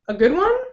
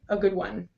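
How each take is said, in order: First: The pitch rises toward the end. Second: The pitch stays level throughout. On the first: The speaker calls it right. "the ideal intonation that we want is going to go up before the comma" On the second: The speaker calls it wrong. "with the flat intonation, we say"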